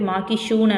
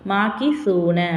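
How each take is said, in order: First: The consonant before 'oon' is a 'sh' sound. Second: The consonant before 'oon' is a 'th' sound. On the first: The speaker calls it wrong. "சில பேர் மாக்கி ஷூன அப்படின்னு சொல்லி படிப்பாங்க. ஸோ அது வந்து தவறு" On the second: The speaker calls it right. "இது வந்து ஷீன் கிடையாது சா"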